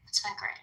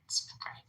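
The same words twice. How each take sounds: First: Said in the usual way. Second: Breathy whispered repeat; whispered aside. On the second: Shown as a demonstration. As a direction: say it again under your breath.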